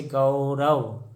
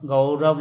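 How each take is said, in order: First: Gaurav stretched as गौ-र-व; slow teaching breakdown of Gaurav; sounded out slowly. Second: Said in the usual way. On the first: Shown as a demonstration. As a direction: draw out the औ in गौरव.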